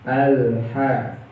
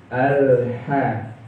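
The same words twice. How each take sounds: Both takes have the same delivery.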